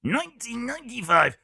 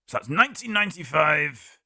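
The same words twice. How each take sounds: First: Nineteen ninety-five sung out much higher; a sudden high announcer swoop on ninety-five; odd high voice. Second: Said in the usual way. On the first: Shown as a demonstration. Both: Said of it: "I don't know why I did that with my voice".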